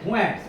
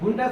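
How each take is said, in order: First: The first vowel glides from 'oo' to 'eh'. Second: The first vowel is a plain 'oo' sound. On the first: The speaker calls it right. "Pronunciation है क्या है, फुएंट्स" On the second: The speaker calls it wrong. "फुंटेस नहीं"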